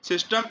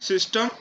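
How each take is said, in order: Both takes have the same delivery.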